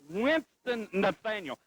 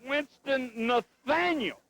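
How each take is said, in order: First: "Winston" leaned on, slow and deliberate; slow emphatic correction. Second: "Nathaniel" hit higher and drawn out very slowly; emphatic name correction. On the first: Correcting his partner who keeps saying Winston-Salem, slow emphatic name. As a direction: spell out "Winston Nathaniel" slowly. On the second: Insisting on his name after his partner says Winston-Salem, slow emphatic. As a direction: stretch "Nathaniel" out high and slow. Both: Real, not acted. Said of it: "Not Winston-Salem".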